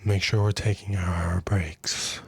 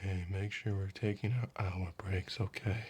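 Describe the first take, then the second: First: Slow, whispered reminder at the ear; slow whispered nag right by the ear. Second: Hushed, low murmur right at the ear; soft nag right by the ear; close-in murmur. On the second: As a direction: lean in and say it softly, close to the ear. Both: Retold or imitated. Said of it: "comes up to your ear and goes".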